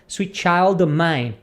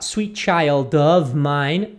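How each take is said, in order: First: The word 'of' is reduced to a short 'o'. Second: The word 'of' is said fully and clearly. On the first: "num ritmo normal de conversação, a pessoa vai dizer" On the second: "ele na fala a pessoa pode falar"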